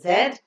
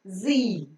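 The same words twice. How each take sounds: First: It is said the British way, as zed. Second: It is said the American way, as zee.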